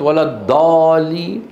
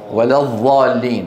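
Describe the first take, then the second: First: The ض sounds like a heavy emphatic d. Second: The ض sounds like the interdental ظ. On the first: "سيخرج معك دال مفخمة" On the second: "ستتحول إلى ضاء"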